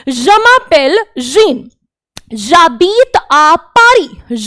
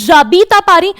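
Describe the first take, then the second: First: Very slow, each French syllable laid out; slow teacher demo in French; slow model sentence. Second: Said in the usual way. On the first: Shown as a demonstration. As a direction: read it out slowly for the class to copy. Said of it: "ये person कह रहा है". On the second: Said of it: "ये आपने सीखा है".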